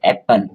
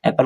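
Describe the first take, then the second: First: "एप्पल" broken into two beats, ऐप and पल; split into syllables. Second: Said in the usual way. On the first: Shown as a demonstration. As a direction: say "एप्पल" in two separate parts, ऐप, then पल. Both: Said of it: "दो बार में पढ़ते हैं".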